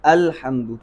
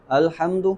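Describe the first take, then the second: First: "الحمد" with a distinct glottal onset, falling at the end; careful model "الحمد", opening vowel fully sounded; clear hamza. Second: "الحمد" with a slurred, weak opening a and rising end; "الحمد" without a firm glottal onset; unclear hamza. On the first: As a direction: start "الحمد" firmly on the hamza. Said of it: "ہم نے خوب واضح کرنا ہے". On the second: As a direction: show the mistake, gliding over the start of "الحمد". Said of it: "تو یہ حمزہ واضح نہیں ہے". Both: Shown as a demonstration.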